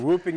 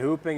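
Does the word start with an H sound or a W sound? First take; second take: W sound; H sound. First: The word begins with a W sound. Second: The word begins with an H sound. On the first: "You can say whooping" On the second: "You can say hooping"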